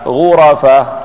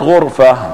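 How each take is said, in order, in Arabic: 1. بعد 'r' يأتي 'a'. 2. لا توجد حركة بعد 'r'. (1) "أن تفتحها" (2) "أن تسكن الراء"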